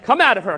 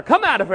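First: Louder stern command; commanding exorcism. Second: Higher, louder insistent command; higher commanding repeat. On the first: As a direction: order the demon out. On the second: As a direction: push the order up a notch. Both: Retold or imitated. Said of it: "and he's like".

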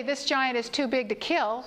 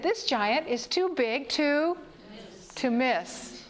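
First: Said in the usual way. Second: "This" lifted, slow build to "miss"; emphatic, slow. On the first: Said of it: "David did not say". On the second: Shown as a demonstration. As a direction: stretch it out, landing on "miss". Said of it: "He said".

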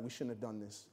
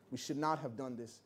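First: Far softer and lower, anxious; hushed worry to her husband; nervous whisper-soft. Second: "not" leaned on in a soft, anxious voice; hushed, but press the word "not"; stress on not. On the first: Wife fretting to her husband in the audience, hushed and anxious. Wife panicking quietly at recital. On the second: Wife repeating her regret to her husband, hushed stress on "not". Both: Retold or imitated.

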